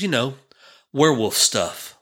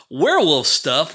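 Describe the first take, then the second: First: Said in the usual way. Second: Slow, rising, higher disbelief; incredulous echo. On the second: Retold or imitated. Dad echoing his four-year-old's claim, slow rising disbelief. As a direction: echo his words as if unheard of.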